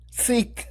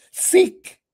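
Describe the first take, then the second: First: Said in the usual way. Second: High, loud exhortation on Seek; preached cry. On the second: Acted. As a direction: throw Seek out like a summons from the pulpit. Preacher quoting scripture, exhorting.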